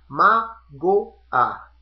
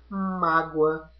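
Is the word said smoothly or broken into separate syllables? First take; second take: separated; smoothly. First: The word is said slowly with syllables separated. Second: The word is said smoothly with a gliding ending.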